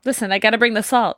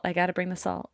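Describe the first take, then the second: First: Said in the usual way. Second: A dropped-voice echo of the quip; softer repeat. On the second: Real, not acted. Guest to the hosts, repeating her salty quip much softer.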